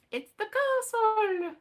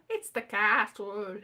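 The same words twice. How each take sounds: First: Castle said slowly, long ar in the middle; drawn-out castle. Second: Castle said as kattle, short a and a t. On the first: Saying castle slowly for her viewers, long ar. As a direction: stretch castle with a long kar sound. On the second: Trying castle as kattle for her viewers. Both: Shown as a demonstration. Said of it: "How do you say that word?".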